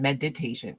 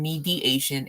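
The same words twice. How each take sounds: First: "meditation" sounded out, med-ih-TAY-shun, with the T; contrasting pronunciation. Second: "mediation" spelled out by sound, mee-dee-AY-shun, no T; contrasting pronunciation. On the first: Streamer compares two viewers' typed words, "meditation" carefully sounded out. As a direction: say "meditation" distinctly, short MED and a clear T. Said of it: "Sean saying meditation". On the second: Streamer compares two viewers' typed words, "mediation" carefully sounded out. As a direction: say "mediation" distinctly, with a long MEE and no T. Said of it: "Fiona saying mediation".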